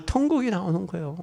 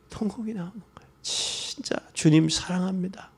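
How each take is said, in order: First: Said in the usual way. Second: Fast, breathy whispered repeat. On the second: Real, not acted. Preacher whispers to the congregation about wailing, fast.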